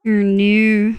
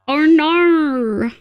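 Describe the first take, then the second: First: Restrained Australian "Oh, no"; lightly stylised Australian "Oh, no"; Australian accent. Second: Higher, hammed-up Australian "Oh, no"; exaggerated Australian accent. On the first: Streamer testing how others hear Australians, lightly stylised Australian accent. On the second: Streamer mimicking what everyone else hears, exaggerated Australian accent. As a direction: ham up the Australian vowels in "Oh, no". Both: Shown as a demonstration. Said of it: "he is the Australian accent".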